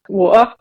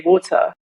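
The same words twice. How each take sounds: First: The T sound in the middle is dropped. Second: The T sound in the middle is pronounced. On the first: The speaker is being lazy. "When I'm lazy, I'll do wa- water as well" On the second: The speaker is being careful. "I've been conditioned to like not drop my T's"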